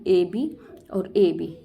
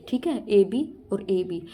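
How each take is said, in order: First: ए बी और ए बी said slowly, letter by letter; slow spelled-out scheme. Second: Said in the usual way. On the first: Shown as a demonstration. Teacher spelling the rhyme scheme for students, slowly. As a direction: spell ए बी और ए बी out one letter at a time. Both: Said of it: "इसकी rhyming क्या बन गई".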